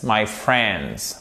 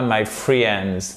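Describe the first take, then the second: First: The letter i in friends is silent. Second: The letter i in friends is sounded. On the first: The speaker calls it right. "On ne prononce pas le i" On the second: The speaker calls it wrong. "et pas my friends"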